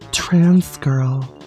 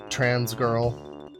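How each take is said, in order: First: It is said in a put-on feminine voice. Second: It is said in a normal voice.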